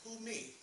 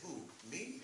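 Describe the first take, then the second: First: It is said quickly, run together. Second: It is said slowly, with a break.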